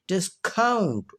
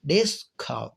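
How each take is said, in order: First: discount with a light डिस, count punched high then falling; stress on count of discount. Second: discount with डिस punched, count falling and relaxed; stress on डिस of discount. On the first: Teacher shows the verb form, second-syllable stress on discount. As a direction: throw the weight onto count in discount. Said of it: "अब stress आगे shift हो". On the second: Teacher models the noun for students, first-syllable stress on discount. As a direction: hit डिस, let count drop in discount. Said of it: "डिस पर ज़्यादा मैंने focus किया". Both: Shown as a demonstration.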